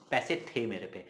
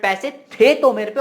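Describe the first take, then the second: First: Said in the usual way. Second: "थे तो" loud, high and stretched; emphatic insistence. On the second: Shown as a demonstration. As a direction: hit "थे तो" hard, slowing down. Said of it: "और ज्यादा जोर से".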